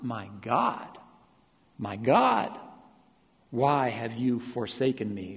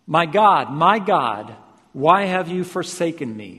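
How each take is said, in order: First: Hushed, spaced-out cry to God; restrained cry of abandonment; subdued cry. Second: Crying out loudly to God; raised voice, pleading cry from the pulpit. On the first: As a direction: plead with long pauses between phrases. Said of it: "So he cries out". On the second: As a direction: cry it out with force. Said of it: "cried out with a loud voice". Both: Retold or imitated.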